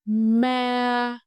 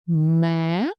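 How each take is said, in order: First: The pitch stays high and level throughout. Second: The pitch starts low and rises sharply. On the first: "Keep your voice high and level" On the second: "you must start low and go up slowly and sharply"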